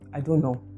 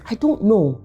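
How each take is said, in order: First: It sounds flat with no emotion. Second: It sounds genuinely unsure and thoughtful. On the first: The speaker inspires no confidence. "It sounds flat, it doesn't convey any emotion" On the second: The speaker truly does not know the answer. "that means I actually don't know the answer"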